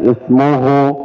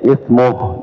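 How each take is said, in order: First: The word ends with a final u vowel. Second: The word ends on a clipped h sound. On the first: The speaker calls it wrong. "jangan ismuhu" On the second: The speaker calls it right. "kalau kita berhenti di sini ya ismuh"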